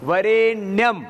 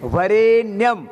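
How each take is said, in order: The two takes are said the same way.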